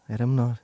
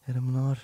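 Both takes have the same delivery.

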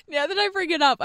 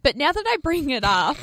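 First: Laughing. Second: Said in the usual way. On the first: Real, not acted.

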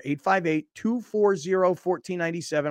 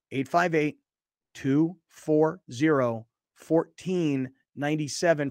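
First: Said in the usual way. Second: Slow, spaced-out phone number; said slower. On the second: Shown as a demonstration. Host repeating the phone number for people driving, slowly. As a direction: read the number out slowly, group by group. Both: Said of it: "I'll say it slower".

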